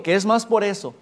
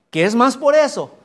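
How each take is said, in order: First: Said in the usual way. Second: "Que es más por eso" called out much higher and louder; emphatic exclamation. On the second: Real, not acted. Preacher insisting to congregation, much higher and louder. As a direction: hit "por eso" hard as a cry.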